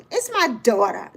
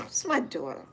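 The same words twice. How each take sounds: First: Said in the usual way. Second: Low, soft, disgusted mutter; an old mother's quiet disdain at her daughter. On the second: Retold or imitated. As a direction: say it like the idea repels you. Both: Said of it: "Just like that".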